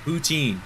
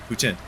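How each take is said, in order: First: "Poutine" higher, with a long second syllable; "Poutine" with a long, full "teen"; drawn-out poutine. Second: "Poutine" quick, with a short second syllable; "Poutine" with a brief, reduced ending. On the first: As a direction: stretch the end of "Poutine", pitched up. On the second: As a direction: cut "Poutine" short, like "poo-tin". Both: Shown as a demonstration. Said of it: "I can say this or that".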